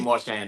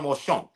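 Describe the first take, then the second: First: The name is pronounced the usual local way. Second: The name is pronounced the French way. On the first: "we usually say Marchand, though... that's the proper pronunciation" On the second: "If you want to say the French thing"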